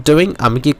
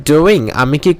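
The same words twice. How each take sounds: The two takes are said the same way.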